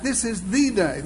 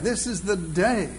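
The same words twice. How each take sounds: First: THE said as a full "thee" and leaned on; emphatic the before day; stress on the. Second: DAY held out at the end; stress on day. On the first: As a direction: hit the word the, making it the one and only. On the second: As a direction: lean on the last word, day. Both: Shown as a demonstration. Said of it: "begin to emphasize a different word".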